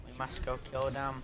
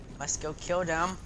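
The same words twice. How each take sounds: First: Softer, muttered we must go kill them; quiet scheming repeat; soft take. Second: Kill them said louder with a rise; eager call to go kill; louder take. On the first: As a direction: say it under the breath. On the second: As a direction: punch kill and lift the end. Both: Shown as a demonstration. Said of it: "repeated differently".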